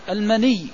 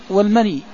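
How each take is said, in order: First: المني with a stressed, doubled final ya, "maniyy". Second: والمني with a light, undoubled ending, "mani"; light final ya. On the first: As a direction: say المني with the last consonant held as a geminate. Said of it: "بالتشديد". (المني بتشديد الياء) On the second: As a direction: say والمني with a short final i, no gemination. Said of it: "بالتخفيف". (والمني بتخفيف الياء) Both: Shown as a demonstration.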